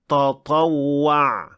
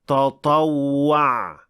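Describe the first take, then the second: First: The first t sounds heavy and emphatic. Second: The same.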